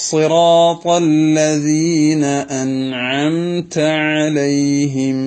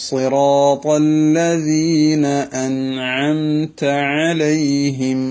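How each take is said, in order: The two takes are said the same way.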